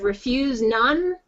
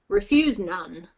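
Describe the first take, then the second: First: The voice rises on the final word. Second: The voice falls on the final word. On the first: It sounds like a question. The speaker calls it wrong. "instead of refuse none" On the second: It sounds like the end of a sentence. The speaker calls it right. "Just downward inflect a none maybe"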